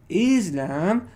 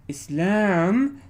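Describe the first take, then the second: First: "Islam" slowly, with a long, loud "IZ"; drawn-out "IZ-lam", weight on the front; first-syllable stress. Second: "Islam" slowly, with a long, loud "lam" that rises; drawn-out "is-LAM", rising at the end; second-syllable stress. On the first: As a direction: lean hard on the start of "Islam". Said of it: "the stress is placed over here". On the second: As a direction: lean hard on the end of "Islam". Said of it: "here the stress is over here". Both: Shown as a demonstration.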